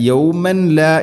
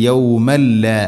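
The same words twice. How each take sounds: First: യൗമൻ ലാ with the n sounded before the lam; യൗമൻ ലാ without the merge; wrong reading. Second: യൗമൻ ലാ said as yawmal-laa, the n fully merged into the lam; merged without nasal. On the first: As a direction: demo the mistaken യൗമൻ ലാ. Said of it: "എന്നല്ല പറയേണ്ടത്". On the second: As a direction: model യൗമൻ ലാ with a doubled l. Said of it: "ഇദ്ഗാം ബിലാ ഗുന്ന". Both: Shown as a demonstration.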